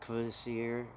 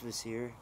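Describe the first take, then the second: First: The word begins with an audible K sound. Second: The word begins without any K sound. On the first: The speaker calls it wrong. "I forget sometimes, though, and try and say Kvasir" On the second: The speaker calls it right. "you just don't pronounce the K, it's just Kvasir"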